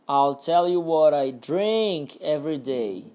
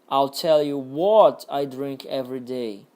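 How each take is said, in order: First: The stress falls on the word drink. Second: The stress falls on the word what. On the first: "Agora no drink" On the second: "Agora no what"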